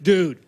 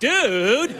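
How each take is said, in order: First: It is said as a flat statement. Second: It is said with impatience.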